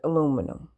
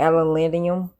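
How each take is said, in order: First: It is said without the extra syllable, American style. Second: It is said with an extra syllable, rest-of-world style.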